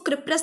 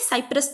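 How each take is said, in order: First: The name begins with a K sound. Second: The name begins with an S sound. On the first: The speaker calls it wrong. "क्रिप्रस नहीं" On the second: The speaker calls it right. "साइप्रस पढ़ते हैं"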